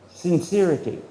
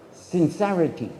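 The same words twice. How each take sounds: The two takes are said the same way.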